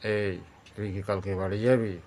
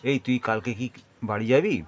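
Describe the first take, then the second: First: It is said at a lowered, deep pitch. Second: It is said at an ordinary, middle pitch. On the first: The speaker is angry. "তাহলে এটা হয়ে গেল আরও নিচের দিকে।" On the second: The listener is close by. "আর যেটা আমি করলাম সেটা সাধারণভাবে।"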